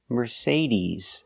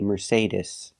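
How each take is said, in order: First: The last vowel is a long ee sound. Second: The last vowel is a short i sound. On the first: The speaker calls it right. "It's the long E like green beans. We say Mercedes" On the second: The speaker calls it wrong. "We do not say Mercedes. The last vowel is not I like milk"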